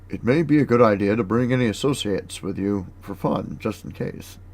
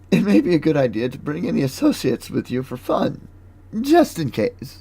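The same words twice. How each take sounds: First: It is read in the reader's ordinary voice. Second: It is read in a put-on female character voice. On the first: The speaker calls it wrong. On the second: The speaker calls it right.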